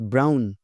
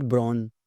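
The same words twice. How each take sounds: First: ब्राउन with a gliding "ow", braun; correct pronunciation. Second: ब्राउन said as "bron", no glide; mispronunciation. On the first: (ब्राउन में "आउ" की आवाज़) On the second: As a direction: turn ब्राउन into "brawn". (ब्राउन को "ब्रॉन" बोलें) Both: Shown as a demonstration. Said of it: "not ब्राउन".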